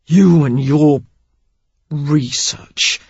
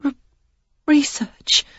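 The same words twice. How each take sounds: First: Research spat out like a dirty word, falling; man sneering research at the woman; research as if obscene. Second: High, halting stammer on research; a frightened young woman stammering. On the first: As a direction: sneer research as though it's filthy. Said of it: "as if it were obscene". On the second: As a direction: trip over the first sound, then push research out. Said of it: "She offered the one stammering word". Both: A narrator's reading.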